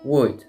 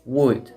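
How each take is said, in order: Both takes have the same delivery.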